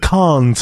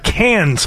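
First: Cannes is said in a snooty, affected way. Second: Cannes is said in a plain, ordinary way. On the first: The speaker is trying to sound sophisticated. The speaker calls it wrong. "snooty Americans. They believe that they're doing it right by saying" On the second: The speaker is using the ordinary form. The speaker calls it right. "the rather pedestrian-sounding"

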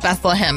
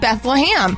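First: The last syllable sounds like hem. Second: The last syllable sounds like ham. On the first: This follows the official spelling. "It's spelt Beth-LUH-HEM" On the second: This is how locals in the South say it. "I believe that this city is Beth-LUH-HAM"

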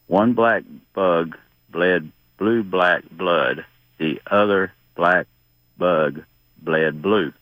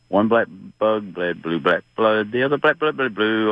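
First: It is said slowly. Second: It is said fast.

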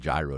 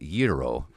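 First: The word does not rhyme with hero. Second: The word rhymes with hero. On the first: This is the speaker's personal habit. "it's a gyro to me" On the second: This is the standard pronunciation. "the actual pronunciation is gyro"

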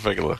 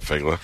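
First: The word is said with three syllables. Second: The word is said with two syllables. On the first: It expresses affection. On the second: It expresses no special affection.

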